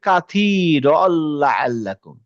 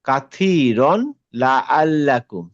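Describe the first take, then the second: First: The n merges into the l, unheard. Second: The n is sounded before the l.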